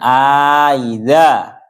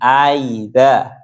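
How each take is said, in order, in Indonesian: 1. Hamzah kedua dilunakkan setelah vokal yang dipanjangkan. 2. Hamzah kedua dilunakkan tanpa vokal yang dipanjangkan. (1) "diberi alif" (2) "tanpa diberi alif di antara dua hamzahnya"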